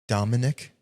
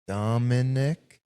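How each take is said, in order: First: The name is said at a normal speed. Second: The name is said slowly and drawn out. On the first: "Say your first name" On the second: "Say it slow"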